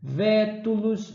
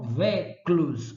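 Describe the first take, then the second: First: The word has three syllables, with a clear middle vowel. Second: The word has two syllables, with the middle vowel dropped. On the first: This is the original, correct form. The speaker calls it right. "A forma original é vétulos" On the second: This is how ordinary people said it. The speaker calls it wrong. "O povo falava véclos"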